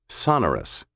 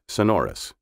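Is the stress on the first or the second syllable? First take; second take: first; second. First: The stress falls on the first syllable. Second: The stress falls on the second syllable. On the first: This is the British pronunciation. "with the accent on the first syllable instead of the second. Sonorous is originally a British pronunciation" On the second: This is the traditional American pronunciation. "The traditional American pronunciation is sonorous"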